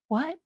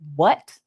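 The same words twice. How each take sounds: First: It sounds wounded and pained. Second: It sounds sharp and annoyed. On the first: The listener feels wounded by what was said. "I'm hurt" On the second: The listener is angry about what was said. "I'm upset"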